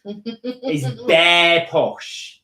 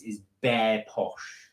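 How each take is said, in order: First: "bare posh" stretched very slowly and louder; drawn-out emphasis. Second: Said in the usual way. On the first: Shown as a demonstration. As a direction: relish BARE POSH, raised and elongated. Same phrase repeated, drawn out louder.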